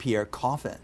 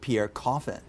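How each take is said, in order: First: The name is said with English pronunciation. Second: The name is said with English pronunciation.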